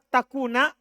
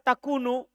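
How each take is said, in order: First: The word ends with an 'a' vowel. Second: The word ends with a 'u' vowel. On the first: The particle before it puts the verb in the subjunctive. "Kalau antum baca takuna, berarti an ini ala penasab" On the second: The particle before it is a lightened form of anna. "Kalau antum baca takunu, berarti an mukhaffafa minas sakila"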